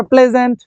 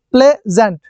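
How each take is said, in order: First: Said in the usual way. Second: pleasant split into play, gent; short gap after play in pleasant; two separate syllables. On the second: Shown as a demonstration. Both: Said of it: "two syllable".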